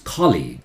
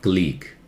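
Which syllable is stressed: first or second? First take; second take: first; second. First: The stress is on the first syllable. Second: The stress is on the second syllable. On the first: The speaker calls it right. "See, the call is red" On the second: The speaker calls it wrong. "It's not colleague"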